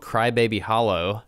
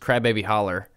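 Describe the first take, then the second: First: The name is said in a tidied, standard pronunciation. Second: The name is said in the local pronunciation. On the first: It is cleaned up for outsiders. The speaker calls it wrong. "which is not how you say it. I'm kind of sanitizing that for you" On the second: It is how the locals really say it. The speaker calls it right. "but it's Crybaby Holler"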